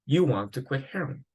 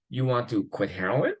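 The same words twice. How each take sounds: First: "You want to quit heroin." said as a statement, pitch falling at the end on "heroin"; flat statement. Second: "You want to quit heroin?" asked as a question, pitch climbing up on "heroin"; rising question. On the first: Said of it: "so the intonation goes down". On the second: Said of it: "it's not a question". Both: Shown as a demonstration.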